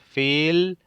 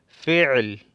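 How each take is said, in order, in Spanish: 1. La palabra no tiene sonido gutural en el medio. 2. La palabra tiene un sonido gutural en el medio. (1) "si no pronunciamos la ain correctamente" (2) "y con el ain"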